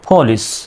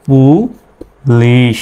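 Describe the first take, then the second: First: The first p is breathy, close to an f. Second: The first p is plain, without a puff of air. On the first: The speaker calls it right. "সঠিক উচ্চারণ হলো পুলিশ, পীর উচ্চারণ ইংরেজরা ফর মতো করে" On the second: The speaker calls it wrong. "আমরা আবার বাংলায় এইভাবে লিখি পুলিশ, যদিও বা এই উচ্চারণটা ভুল"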